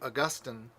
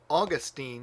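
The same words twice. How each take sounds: First: The stress is on the second syllable. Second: The stress is on the first syllable. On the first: It follows the Latin pattern. "Roman Catholics tend to do Augustine uh, because they're thinking of Latin" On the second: It follows the English pattern. "because that's the third to the end"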